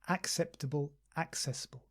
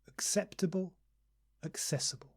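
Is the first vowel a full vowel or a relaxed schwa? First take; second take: full vowel; schwa. First: The first vowel is a full, unreduced vowel. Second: The first vowel is a relaxed schwa sound. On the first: The speaker calls it wrong. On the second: The speaker calls it right. "the first two words begin with schwa"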